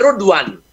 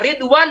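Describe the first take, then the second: First: The word begins with an 'u' vowel. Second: The word begins with an 'i' vowel. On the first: This is the Shu'bah reading. "Kalau Syu'bah karakteristiknya" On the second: This is the usual reading. "Ridwan dipanggil Rudwan"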